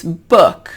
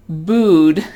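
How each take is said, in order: First: Book with a short, lax uh-like oo; book, the loose vowel, not the oo of food; correct short vowel. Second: Booed with a long tense oo; booed, the vowel as in food; wrong vowel demo. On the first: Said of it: "it's book". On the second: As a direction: draw out a tight oo in booed. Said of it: "So it's not booed". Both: Shown as a demonstration.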